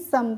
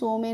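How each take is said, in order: First: The vowel sounds like 'uh'. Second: The vowel sounds like 'oh'. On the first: The speaker calls it right. "सम पढ़ते हैं" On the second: The speaker calls it wrong. "सो में नहीं"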